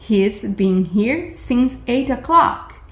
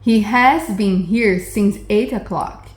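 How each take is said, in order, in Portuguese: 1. O verbo é encurtado para um único som de s. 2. O verbo é dito por extenso, como has. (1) "esse S da primeira frase é a abreviação do has" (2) "Ao lado tem a mesma frase"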